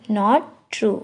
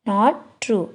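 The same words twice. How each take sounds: The two takes are said the same way.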